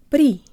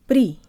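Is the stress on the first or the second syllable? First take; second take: second; second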